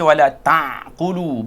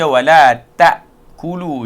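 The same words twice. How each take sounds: First: The consonant is a deep throat ain. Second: The consonant is a light glottal stop. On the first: The speaker calls it wrong. "Jangan baca wala ta'kulu. Bukan ain, ini hamzah" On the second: The speaker calls it right. "kita baca wala ta'kulu"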